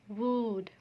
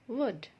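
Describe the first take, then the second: First: The vowel sound is long. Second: The vowel sound is short. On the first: The speaker calls it wrong. "here you won't sound it as wood" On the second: The speaker calls it right. "Double O makes a short sound before D and K"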